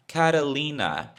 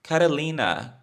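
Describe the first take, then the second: No difference in how they are said.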